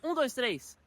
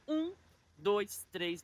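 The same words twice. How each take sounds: First: The count is said at a quick pace. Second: The count is said at a slow pace. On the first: The hold is too short to count. The speaker calls it wrong. "não é contando" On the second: The hold lasts the full three seconds. The speaker calls it right. "bem devagar"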